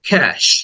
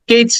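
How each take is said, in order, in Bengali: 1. এটি 'cash' এর মতো উচ্চারিত হয়। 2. এটি 'ketch' এর মতো উচ্চারিত হয়। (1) "ক্যাশ। খ, দেন এ সাউন্ড, এরপরে স সাউন্ড" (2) "কেউ হয়তো বলে থাকো কেচ না"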